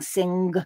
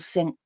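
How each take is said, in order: First: The word ends with a released hard g. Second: The word ends with a devoiced k sound. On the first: "getting a harder g" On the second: "or a devoiced k"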